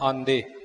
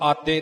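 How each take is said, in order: First: The middle consonant is a nasal nd. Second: The middle consonant is a plain t. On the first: The speaker calls it right. "ਕਹਿਣਾ ਆਂਦੇ" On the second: The speaker calls it wrong. "ਇਉਂ ਆਤੇ ਨਹੀਂ ਕਹਿਣਾ"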